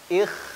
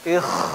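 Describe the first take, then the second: First: The kh friction is light and brief. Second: The kh friction is strong and overdone. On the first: The speaker calls it right. "dah cukup" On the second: The speaker calls it wrong. "Enggak perlu ah, ikh. Jangan"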